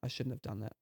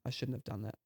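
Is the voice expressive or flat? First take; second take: flat; flat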